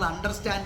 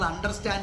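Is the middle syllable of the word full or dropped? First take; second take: full; full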